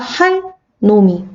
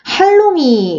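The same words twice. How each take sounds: First: It is read with a pause after 할. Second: It is read smoothly without a pause.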